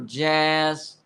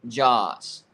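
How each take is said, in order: First: The vowel in the name is long. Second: The vowel in the name is short. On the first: "Two A's for a long A" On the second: "one A for a short A"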